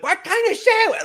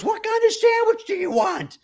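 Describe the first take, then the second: First: High, loud mock yelling; imitating a woman yelling an order. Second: Hammed-up shouted order; imitating a woman bellowing; mock yell. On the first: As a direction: shout it across the shop. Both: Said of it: "at the top of her lungs".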